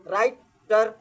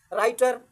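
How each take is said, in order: First: writer broken slowly into two parts, rai-tar; teacher's two-part split of writer; split into syllables. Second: Said in the usual way. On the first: Shown as a demonstration. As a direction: say writer with a clear pause between राइ and टर. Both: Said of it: "ये कितने part हो गए".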